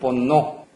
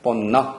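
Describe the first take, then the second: First: The last vowel is a full, rounded 'o'. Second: The last vowel is a plain unrounded 'uh'. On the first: "너무 오 소리가 들어가는 뻔노, 뻔노 이렇게 발음하셔도 안 된다" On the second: "뻔너 이렇게 헷갈리게 될 수가 있는데"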